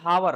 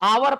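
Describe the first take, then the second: First: The word begins with an h sound. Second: The word begins with a vowel, no h. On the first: The speaker calls it wrong. "ना कि हावर" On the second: The speaker calls it right. "आवर पढ़ते"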